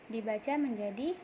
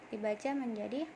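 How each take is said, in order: The two takes are said the same way.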